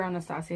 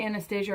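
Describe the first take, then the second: First: "Anastasia" said as Ana-STAH-sia; preferred pronunciation. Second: "Anastasia" said as Ana-STAY-zha; alternative pronunciation. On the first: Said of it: "I think it's Anastasia". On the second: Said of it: "Did I say Anastasia or Anastasia?". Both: Shown as a demonstration.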